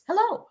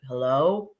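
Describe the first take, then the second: First: The greeting sounds bright and warm. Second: The greeting sounds flat and curt. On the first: The caller is glad to talk. "How are you today, Sabrina? That's so nice to uh, hear your voice again" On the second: The caller is not glad to talk. "Is it that you're like hello"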